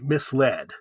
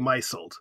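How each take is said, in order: First: The word is said as 'mis-led', with a short 'i' and an 's' sound. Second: The word is said as 'my-zled', with a long 'i' and a 'z' sound. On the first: It is the past tense of 'mislead'. The speaker calls it right. "It's pronounced misled" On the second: It is treated as if it were a verb 'to misle'. The speaker calls it wrong. "I would say misled. That's bad"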